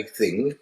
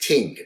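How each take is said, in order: First: Said in the usual way. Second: Ting said with a hard t, no th; Maltese ting. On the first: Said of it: "we don't say thing". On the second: Shown as a demonstration. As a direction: say ting, dropping the th of thing. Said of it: "it's ting".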